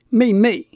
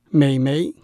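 First: Both syllables have a falling fourth tone. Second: The syllables have a dipping then a rising tone. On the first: This is the ordinary word for a younger sister. "妹妹两个妹字都是四声" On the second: This is said in a more affectionate way. "讲得比较亲切的时候，我们会说美眉，那是3 声跟2 声"

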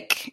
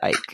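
First: The name has a short vowel, rhyming with kick. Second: The name has a long vowel, rhyming with bike. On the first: The speaker calls it wrong. "I used to say Ick" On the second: The speaker calls it right. "I think he pronounces it Ike"

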